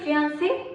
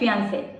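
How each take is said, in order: First: The word ends with an 'ee' sound. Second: The word ends with an 'ay' sound. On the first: The speaker calls it wrong. "നമ്മൾ normally ഇങ്ങനെ പറയാറില്ലേ?" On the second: The speaker calls it right. "It will be like ഫിയാൻസേ"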